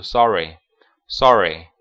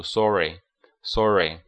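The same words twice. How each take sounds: First: "sorry" with an open American ah vowel; American pronunciation. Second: "sorry" with a rounded British aw vowel; British pronunciation. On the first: English teacher contrasting the American reading of sorry, American accent. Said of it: "美式的话读". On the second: English teacher showing students the British reading of sorry, British accent. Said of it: "英式的话读". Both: Shown as a demonstration.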